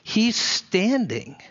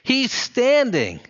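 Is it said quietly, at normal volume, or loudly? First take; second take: quiet; normal. First: It is said quietly, almost to oneself. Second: It is said aloud at normal volume.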